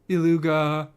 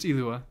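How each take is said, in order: First: A hard G sound is heard in the middle. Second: No G sound is heard in the middle. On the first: The speaker calls it wrong. "It's like beluga, like the whale" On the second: The speaker calls it right. "So the G is silent. It's just Ilua"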